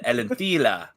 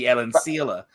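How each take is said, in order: First: The middle consonant is not an s sound. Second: The middle consonant is an s sound. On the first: This is how the character said it. The speaker calls it wrong. "he said Elentila" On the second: This is the expected form. The speaker calls it right. "It should be Elencila"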